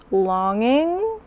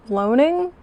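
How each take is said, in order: First: "Longing" said with the vowel of long, rising as a guess; tentative "Longing?" as the fix; corrected word. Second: "loaning" said like loan-ing, rising in doubt; puzzled "loaning?" with the vowel of loan; misread word. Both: Real, not acted. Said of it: "I'm assuming that's supposed to be longing".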